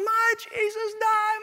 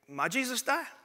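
First: It is screamed at full volume. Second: It is said at normal volume.

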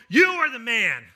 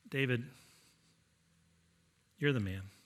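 First: It sounds triumphant and forceful. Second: It sounds quiet and regretful.

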